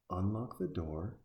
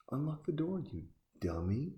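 First: Slow, deliberate "Unlock the door"; slow spelled-out instruction. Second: "unlock the door" jumps much higher, rising in disbelief; exasperated. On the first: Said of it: "Just calm down for a second". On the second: Yelling advice at the screen. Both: Real, not acted.

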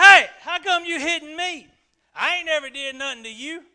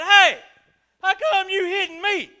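First: High, loud, fast-talking cartoon donkey; full Eddie Murphy-style Donkey bit; Donkey complaining to Balaam, high and loud; Shrek's Donkey. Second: High, loud, indignant donkey voice; a donkey protesting his beating, loud and high; talking donkey. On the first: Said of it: "that voice, like on Shrek". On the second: Retold or imitated. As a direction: squawk it like a cartoon donkey. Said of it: "I imagine he did it in that voice, like on Shrek".

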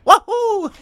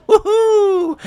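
First: Very high, louder aged Mario whoop; older Mario woohoo. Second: Very high, louder Mario woohoo. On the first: Mario's cheer imagined twenty years on. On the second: Mario's cheer as it sounds now. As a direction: whoop it like today's Mario. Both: Shown as a demonstration. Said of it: "sound a little bit more like this".

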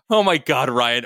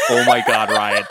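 First: Raised, exasperated reproach without laughter; exasperated character line. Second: Loud, laughing disbelief. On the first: A narrator's reading. Maddie scolds Ryan over Daddy Hunt, exasperated. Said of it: "Maddie asked". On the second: Real, not acted. Reader breaks up over the Daddy Hunt line, laughing. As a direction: crack up while saying it.

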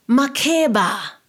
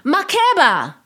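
First: Slow, loud, troubled calling of the name; uneasy drawn-out cry of the name; disturbed call. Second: Much higher, loud screamed name; piercing warning shout; desperate shout. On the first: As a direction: call out as if in danger. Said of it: "She sounded disturbed". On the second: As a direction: scream her name to stop the taxi. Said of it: "Was the shout". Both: A narrator's reading.

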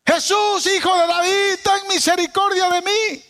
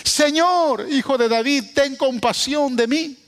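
First: Súplica gritada, mucho más aguda; grito desesperado. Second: Súplica leída un poco más alta; grito leído suave. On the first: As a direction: clama a Jesús a todo pulmón. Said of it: "Una mujer gritando". (madre desesperada grita a Jesús pidiendo misericordia) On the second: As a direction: lee el grito sin gritarlo del todo. (clamor leído, apenas elevado) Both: Acted.

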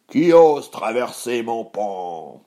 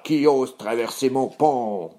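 First: Loud, drawn-out troll growl; menacing challenge, loud and stretched; rumbling troll. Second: Troll growl, less drawn out; menacing troll at a brisker clip; roaring troll. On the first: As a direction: boom it slowly as a hungry troll. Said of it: "gronda le troll affamé". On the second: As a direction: growl the challenge straight away. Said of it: "rugit aussitôt". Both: Acted.

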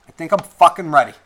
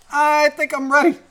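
First: Louder, quick, firm restatement; forceful readiness. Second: Very high, playful voice; squeaky mock readiness. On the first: Real, not acted. Podcaster bracing for repercussions, forceful readiness. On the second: Podcaster bracing for repercussions, squeaky mock readiness. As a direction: pitch it way up in mock uncertainty.

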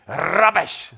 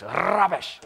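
First: Rubbish in a British accent, raised and loud. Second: Rubbish in a British accent, higher. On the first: Preacher showing off a British accent on one word. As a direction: say Rubbish the British way, higher and punchy. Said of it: "If you say it with the right accent". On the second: Preacher repeating the word in a British accent. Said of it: "If you say it with the right accent, it really, really works". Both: Shown as a demonstration.

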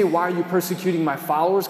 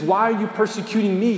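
First: Quick rising question, no special stress on "my followers"; plain wrong version. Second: "me" leaned on as the key word; stress on me. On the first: Preacher gives the wrong version to the congregation, quick and rising. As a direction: toss off "Why are you persecuting my followers?" as the version Jesus didn't say. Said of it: "He doesn't say". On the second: Preacher quotes Jesus to Saul, stressing "me". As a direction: land the question on "me". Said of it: "He says". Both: Shown as a demonstration.

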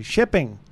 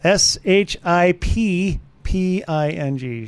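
First: Said in the usual way. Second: S H I P P I N G spelled letter by letter, slow; spelled out slowly. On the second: Shown as a demonstration. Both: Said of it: "it's about shipping".

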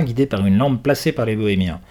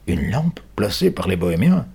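First: Said in the usual way. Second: Repeating it in disbelief, rising on bohémiens; the policeman repeats the boy's words, surprised. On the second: Acted. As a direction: echo the words, taken aback. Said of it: "répète l'homme, surpris".

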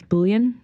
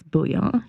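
First: "bouillon" as BULL-yun; anglicized bouillon. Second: "bouillon" as bool-YAH, no hard n; French-style bouillon. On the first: Retold or imitated. Quoting people who correct her, anglicized pronunciation. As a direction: say "bouillon" with an English final n. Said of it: "I'm saying it wrong". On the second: Shown as a demonstration. Correcting folks on the word, French-style pronunciation. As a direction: end "bouillon" on an open nasal vowel. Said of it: "when I pronounce bouillon".

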